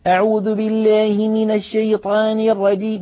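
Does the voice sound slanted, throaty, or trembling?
slanted. The vowels are bent toward an i sound. The reciter twists the jaw where it is not due. "تعويج الفك هو إمالة ما لا إمالة فيه"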